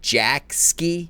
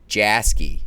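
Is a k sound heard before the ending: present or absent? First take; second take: present; absent. First: A k sound is said before the ending. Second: No k sound is said before the ending. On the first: "Do you pronounce the C?" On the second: "or just"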